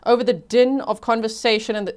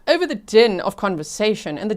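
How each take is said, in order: First: It is read in the speaker's ordinary accent. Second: It is read in a fancy British accent.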